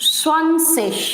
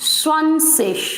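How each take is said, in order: Both takes have the same delivery.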